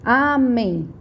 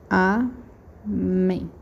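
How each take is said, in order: First: Amém stretched out, stress on MÉM; stress on final syllable. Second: Amém split into a, pause, mém; syllable by syllable. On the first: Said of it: "qual que é a minha sílaba tônica?". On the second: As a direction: dictate Amém slowly in two separate syllables. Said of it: "vou escrever de novo". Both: Shown as a demonstration.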